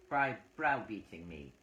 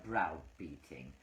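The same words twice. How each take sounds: First: Said in the usual way. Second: Slow, mocking echo of browbeating; drawn-out mock of browbeating; mocking repeat. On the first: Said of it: "Phyllis says". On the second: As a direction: drag out browbeating to mock the word. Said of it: "You use such heavy words".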